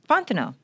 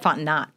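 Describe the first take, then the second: First: The final t sound is silent. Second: The final t sound is pronounced. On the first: The speaker calls it right. "Three syllables" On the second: The speaker calls it wrong. "Because it's spelled with a T, so it makes sense why you said Fontenot"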